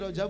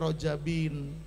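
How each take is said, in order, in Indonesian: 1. Kata itu berakhir dengan b tanpa akhiran. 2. Kata itu berakhir dengan bunyi -in tambahan. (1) "Di sini fi Rajab ya" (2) "Jadi dibacanya Rajabin"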